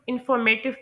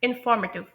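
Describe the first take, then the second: First: The stress is not on the second syllable. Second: The stress is on the second syllable. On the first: The speaker calls it wrong. "कुछ लोग informative pronounce करते हैं" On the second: The speaker calls it right. "जो second syllable है ना, फॉर, तो वो stressed है"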